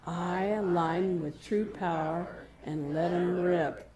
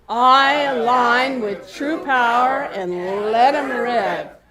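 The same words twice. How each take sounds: First: It is said at normal loudness. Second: It is yelled out loudly.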